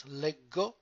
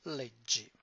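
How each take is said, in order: First: "leggo" with a hard g, leh-go. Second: "leggi" with a soft dj, led-jee. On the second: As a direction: make the g in "leggi" sound like j. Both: Shown as a demonstration. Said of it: "two different sounds".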